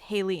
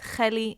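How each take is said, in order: First: The name is said with an English pronunciation. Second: The name is said with a Hebrew pronunciation. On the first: "in English" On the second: "in Hebrew"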